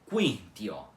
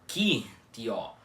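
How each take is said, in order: First: A w sound comes before the i. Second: The u is silent, with no w sound. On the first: The speaker calls it right. "O u do que u sempre precisa ser pronunciado" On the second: The speaker calls it wrong. "com o u mudo e não pronunciado"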